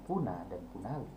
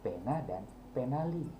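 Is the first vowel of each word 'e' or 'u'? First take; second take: u; e. First: The first vowel of each word sounds like 'u'. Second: The first vowel of each word sounds like 'e'. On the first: The speaker calls it wrong. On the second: The speaker calls it right.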